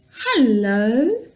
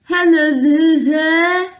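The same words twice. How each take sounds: First: The word is clear, with the tongue moving freely. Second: The word is garbled, with the tongue held still. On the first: The speaker calls it right. "Can you feel your tongue moving in your mouth?" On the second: The speaker calls it wrong. "Stick out your tongue and say"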